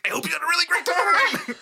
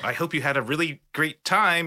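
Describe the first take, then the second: First: It is said in an overexcited, manic tone. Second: It is said in a calm, normal tone.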